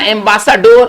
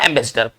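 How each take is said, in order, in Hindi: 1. शब्द को उसकी वर्तनी के अनुसार अक्षर-दर-अक्षर बोला जाता है। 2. शब्द अपने सामान्य उच्चारण के साथ बोला जाता है। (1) "लेकिन लिख क्या रहे हैं?" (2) "इसका सही उच्चारण होगा एम्बेसडर"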